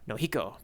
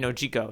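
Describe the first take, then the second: First: The middle consonant is a breathy h sound. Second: The middle consonant is a j sound. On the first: "I just give it Spanish vowels pronunciation which would be Nohiko" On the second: "it could be Nojiko as well"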